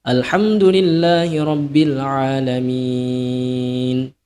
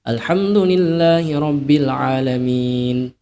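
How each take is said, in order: First: The final vowel is held very long. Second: The final vowel is held only briefly. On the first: "enam harokat" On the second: "dua harokat"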